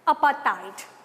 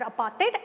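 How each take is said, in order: First: It is said in a general, non-South African way. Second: It is said the way South Africans say it.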